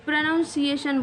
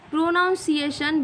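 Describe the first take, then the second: First: प्रोनाउंसिएशन said pruh-nown-see-ay-shun with a short first vowel; प्रोनाउंसिएशन with a short "pruh" at the start; correct pronunciation. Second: प्रोनाउंसिएशन with the wrong "noun" sound in the middle; wrong pronunciation. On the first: Teacher giving students the right form: pruh-nun-see-ay-shun. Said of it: "प्रोनाउंसिएशन बोलते हैं". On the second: Teacher repeating the mistake for students: pro-nown-see-ay-shun. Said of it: "बिल्कुल wrong है". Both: Shown as a demonstration.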